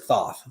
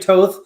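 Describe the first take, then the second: First: The name begins with a th sound. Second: The name begins with a plain t sound. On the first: This is how most people know it. "most people know it as Thoth" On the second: This is how the other person says it. "he's just he's saying Toth"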